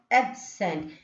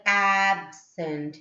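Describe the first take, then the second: First: "absent" with a short, light first syllable; stress on second syllable. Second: "absent" with a long, stressed first syllable. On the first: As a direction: keep "ab" brief, weight on SENT in "absent". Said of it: "stressing on the next syllable". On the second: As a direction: lean on the AB of "absent". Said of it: "giving stress for the first syllable". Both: Shown as a demonstration.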